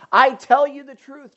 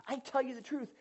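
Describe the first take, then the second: First: Loud, ringing declaration; emphatic quote. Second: Quieter, intimate restating of the promise; soft repeat. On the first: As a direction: proclaim it to the whole room. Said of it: "quoting Jesus emphatically". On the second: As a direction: say it gently, close to them. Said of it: "same quote repeated softly". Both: Shown as a demonstration.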